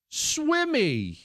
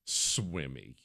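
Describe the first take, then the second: First: Pitched high, stammering fake sob; high stammered sob-guess. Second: Low, quiet deadpan repeat; low deadpan echo. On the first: Son fake-sobbing a guessed fish name, pitched high. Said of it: "And he goes". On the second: Real, not acted. Father repeating the son's fake name, low and quiet. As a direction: drop it flat as the punchline. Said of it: "repeated punchline".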